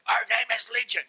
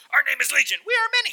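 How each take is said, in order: First: Raised, rough demon voice; higher-pitched voice of many demons. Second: Very high, loud demon shriek; piercingly high, loud possessed voice. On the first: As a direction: answer as a possessed man. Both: Acted. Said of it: "what did he sound like?".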